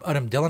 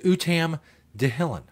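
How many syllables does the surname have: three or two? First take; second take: two; three. First: The surname is said in two syllables. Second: The surname is said in three syllables. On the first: This is how other people say the name. "everybody else may call him Udom Dillon" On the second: This is how the speaker likes to say the name. "in my head, it says Utam Dahilin"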